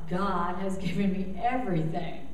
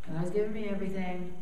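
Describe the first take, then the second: First: It is said with wonder and heartfelt feeling. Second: It is said flatly, by rote, without feeling. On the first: It is said with genuine realization and belief. "oh my God" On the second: It is said only out of obligation, without belief. "saying it just because I'm told to"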